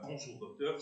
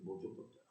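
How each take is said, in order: First: It is said firmly and strongly. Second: It is said faintly and weakly.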